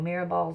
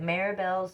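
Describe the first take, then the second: First: The first part sounds like mirror. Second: The first part does not sound like mirror. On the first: The speaker calls it right. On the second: The speaker calls it wrong.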